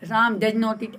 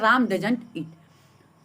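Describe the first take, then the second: First: Does not is said as two full words. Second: Does not is contracted into one word. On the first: It sounds less natural and less professional. The speaker calls it wrong. "ऐसे नहीं बोलते" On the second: It sounds more natural and professional. The speaker calls it right. "बोलते हैं"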